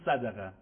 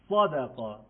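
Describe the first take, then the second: First: The first s is light, as in ordinary Persian. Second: The first s is thick and heavy, tongue root raised. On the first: The speaker calls it wrong. "معمولی فارسی بخوام بگیم میگیم صدقه، ولی غلطه" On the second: The speaker calls it right. "صاد درشتر از سین"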